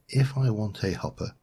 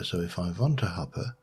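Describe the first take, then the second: First: It is said in a normal voice. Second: It is said in a fake vampire accent.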